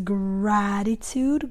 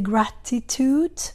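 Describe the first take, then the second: First: It is said with a typical American pronunciation. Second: It is said with a non-American pronunciation. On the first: "If you live in the United States, usually the pronunciation is gratitude" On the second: "Sometimes students say gratitude, that's okay"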